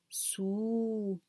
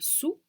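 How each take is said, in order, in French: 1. La voyelle est tenue pendant environ deux temps. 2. La voyelle n'est tenue que brièvement. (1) "plus long que la voyelle ordinaire" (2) "c'est la voyelle courte"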